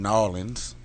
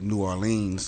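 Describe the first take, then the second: First: The city name is said the local way. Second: The city name is said the standard way. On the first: It is meant for people from the city. "that's just for the locals" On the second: It is meant for visitors to the city. "To all the tourists, you may pronounce that"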